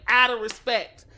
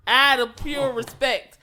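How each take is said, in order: First: Said in the usual way. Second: "out of pure respect" drawn out slowly, "pure" leaned on; slow down and lean hard on "pure respect"; stress on pure respect. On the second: Shown as a demonstration.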